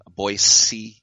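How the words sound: It is pronounced the way Idaho locals say it. This is how people in Idaho say it. The speaker calls it right. "If you're in Idaho, you say Boise"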